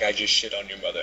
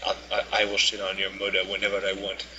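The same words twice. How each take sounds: First: Said in the usual way. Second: Imitated African accent, taunting; mocking African accent. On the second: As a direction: mimic his African accent to mock him. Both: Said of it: "mocking him".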